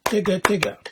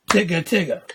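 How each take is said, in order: First: Tigga Tigga with each of its four syllables cleanly separated; the right way, every syllable spoken. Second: Tigga Tigga said as one slurred lump, syllables not separated; the wrong way, syllables run together. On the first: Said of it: "clap every syllable like this". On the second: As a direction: blur Tigga Tigga into two beats. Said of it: "That's wrong". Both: Shown as a demonstration.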